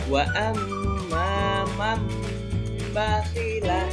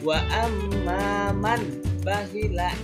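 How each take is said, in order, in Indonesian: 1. Bunyi sengau sebelum b berubah menjadi bunyi m. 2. Bunyi sengau sebelum b adalah bunyi n yang jelas. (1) "ba diganti dengan ma" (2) "Jangan dibaca wa amma man bakhila, itu salah"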